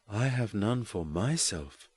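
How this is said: The stress falls on the word myself.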